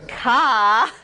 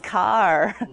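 First: The word ends without an R sound. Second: The word ends with an R sound. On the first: The speaker calls it wrong. "It's not car" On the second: The speaker calls it right. "There actually would be an R there"

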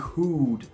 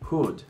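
First: The vowel is long with tightly rounded lips. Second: The vowel is short and lax. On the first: The speaker calls it wrong. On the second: The speaker calls it right. "именно краткий звук в этом слове и есть"

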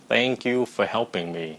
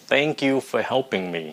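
Both takes have the same delivery.

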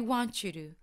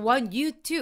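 First: The words run together with a 'chu' sound. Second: Each word is said separately with breaks. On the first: "to랑 you 사운드가 섞이면 약간 추 발음처럼 나거든요" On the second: "이렇게 끊어서 발음하셔도 괜찮고요"

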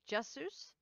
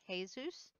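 First: The name begins with a J sound. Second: The name begins with an H sound. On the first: The speaker calls it wrong. "not Jesus" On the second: The speaker calls it right. "J sounds like an H in Spanish. That's why it's Jesus"

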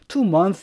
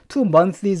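First: The word ends reduced, sounding like 'month'. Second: The word ends with a full 'th-s' cluster. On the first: The speaker calls it right. "S가 들어가도 발음은 months가 아니라 그냥 month입니다. two months 하셔야지요" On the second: The speaker calls it wrong. "two months 하시면 안 돼요"

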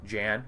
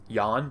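First: The name begins with a J sound. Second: The name begins with a Y sound. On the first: The speaker calls it wrong. "Instead of Jan" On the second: The speaker calls it right. "the J's as Y's"

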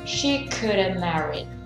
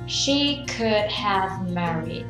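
First: 'Could have' is shortened and run together. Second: 'Could have' is said fully, word by word.

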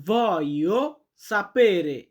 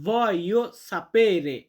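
Both takes have the same delivery.

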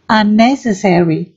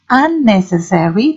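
First: The main stress falls on the ne syllable. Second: The main stress falls on a syllable other than ne. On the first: The speaker calls it right. "tekanan pada kata ini tetap jatuh pada ne" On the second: The speaker calls it wrong. "Jadi bukan unnecessary"

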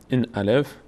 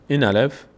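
No difference in how they are said.

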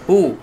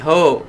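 First: The syllable ends in a u vowel. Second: The syllable ends in an o vowel. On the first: The speaker calls it right. "kita bunyikan dengan huruf hu" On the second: The speaker calls it wrong. "kita tak bunyi ho"

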